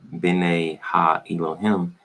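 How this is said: It uses modern Hebrew vowel sounds. "The modern Hebrew is"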